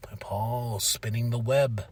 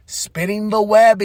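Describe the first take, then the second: First: Low, slow, very soft; hushed, drawn-out intrigue; sly hush. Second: Slow, higher-pitched lilt; slow, lifted voice for effect; raised repeat. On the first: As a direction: creep in quietly like a schemer. Narrating a schemer's arrival. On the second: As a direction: draw it out high and teasing. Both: Retold or imitated.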